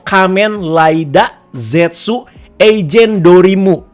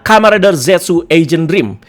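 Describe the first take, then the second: First: The name is said with Japanese-style sounds. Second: The name is said with English-style sounds. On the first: "Dibacanya itu"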